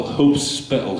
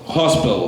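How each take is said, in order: First: Hope Spittle split into two words, higher; punning split. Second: Said in the usual way. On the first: Shown as a demonstration. Poet punning on hospital, words split apart.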